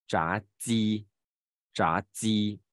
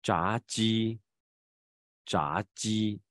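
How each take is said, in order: First: 炸鸡 with 鸡's j pushed onto the tongue tip, like dzi; slow wrong demo, 鸡 hissed at the tongue tip; exaggerated tongue-tip sound. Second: 炸鸡 with 鸡's j made on the tongue surface; slow correct demo, palatal j in 鸡; tongue-surface sound. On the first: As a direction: overdo a dental j in 炸鸡. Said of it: "就变成舌尖音了啊". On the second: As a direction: model 炸鸡 clearly, tongue tip relaxed. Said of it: "其实是舌面音啊". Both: Shown as a demonstration.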